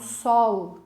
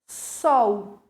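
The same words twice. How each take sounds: First: The final L is pronounced as a clear L. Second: The final L sounds like a U. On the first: "Algumas pessoas falam sol" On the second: "tenho a letra L, mas o fonema é de U"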